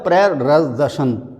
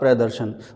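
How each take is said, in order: First: An extra r sound follows the first syllable. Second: No extra r sound follows the first syllable. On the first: The speaker calls it wrong. "तो अगर इसको मैं पढ़ूँ तो ये हो जाएगा प्ररदर्शन, तो गलत हो जाएगा।" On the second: The speaker calls it right. "तो सही होगा प्रदर्शन।"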